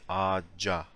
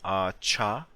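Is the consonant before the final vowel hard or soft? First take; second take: soft; hard. First: The consonant before the ending is a soft j. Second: The consonant before the ending is a hard ch. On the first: The speaker calls it right. "we need to say ağaca, like this" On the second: The speaker calls it wrong. "you can't say ağaça because that sounds too hard"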